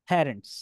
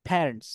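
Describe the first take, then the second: No difference in how they are said.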